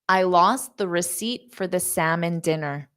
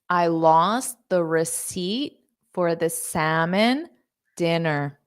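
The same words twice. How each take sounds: First: The sentence is spoken at a fast pace. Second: The sentence is spoken at a slow pace. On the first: "I will say it fast" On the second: "Now I'll say it slow"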